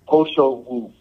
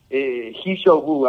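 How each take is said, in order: First: The name begins with a 'p' sound. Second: The name begins with an 'h' sound. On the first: The speaker calls it right. "the correct pronunciation is" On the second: The speaker calls it wrong. "It's a Chinese herb called"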